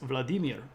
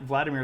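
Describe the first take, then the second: First: The stress is on the middle syllable. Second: The stress is not on the middle syllable. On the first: The speaker calls it right. "Accents on the middle syllable" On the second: The speaker calls it wrong. "Vladimir is not actually the way that you say that"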